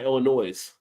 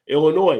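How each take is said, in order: First: The final S is pronounced. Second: The final S is silent. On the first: The speaker calls it wrong. "not Illinois" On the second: The speaker calls it right. "the S is silent on Illinois"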